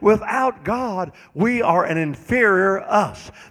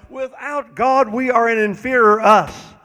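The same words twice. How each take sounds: First: It is said slowly. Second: It is said at a normal pace.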